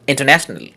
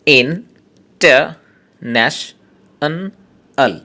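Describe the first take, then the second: First: Said in the usual way. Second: international slowly split into five syllables with pauses. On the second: Shown as a demonstration. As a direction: break international into five separate beats. (International পাঁচটা সিলেবলে থেমে থেমে) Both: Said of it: "পাঁচটা syllable আছে".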